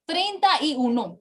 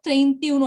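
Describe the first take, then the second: First: "Treinta y uno" with the full "ta" before "y"; correct full form. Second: "treinta y uno" squeezed into "trentiuno"; mistaken joined form. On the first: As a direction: sound all three words in "Treinta y uno". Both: Shown as a demonstration. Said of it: "It is not treinta y uno like the conjugation".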